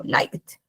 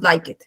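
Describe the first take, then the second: First: Liked en una sílaba, «laikt»; pronunciación correcta. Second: Like it en dos sílabas, «lai-ket»; mala pronunciación. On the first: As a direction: di liked sin E, uniendo K y D. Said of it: "No decimos like it, sino". (liked con E muda y final fusionado) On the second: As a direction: pronuncia la E, como like it. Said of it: "No decimos like it". (like it como liked mal dicho, con vocal extra) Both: Shown as a demonstration.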